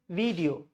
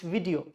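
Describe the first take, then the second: First: The first vowel is a long ee sound. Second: The first vowel is a short i sound. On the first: The speaker calls it wrong. "Some people say video. It's not E sound" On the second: The speaker calls it right. "it's video. Chota E"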